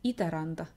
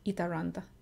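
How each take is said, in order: First: The R is a rolled, trilled sound. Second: The R is a soft English-style sound. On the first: "in Finnish we have that rolling R sound" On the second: "Or with the English R sound"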